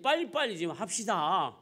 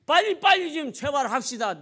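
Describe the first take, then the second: First: Said in the usual way. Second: Raised, louder impatient plea; urgent pleading. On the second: Acted. Waiting father begging the doctor to hurry, urgent pleading. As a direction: press the doctor to hurry, voice jumping up.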